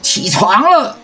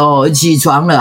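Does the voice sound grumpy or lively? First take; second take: lively; grumpy. First: It sounds lively and full of energy. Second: It sounds grumpy and uncomfortable.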